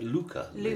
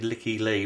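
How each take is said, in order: First: The first name sounds like 'luca'. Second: The first name sounds like 'licky'. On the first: The speaker calls it right. "I think it would be like Luca Lee" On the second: The speaker calls it wrong. "It was some translator thing where it said Licky Lee, but that sounds a bit tacky"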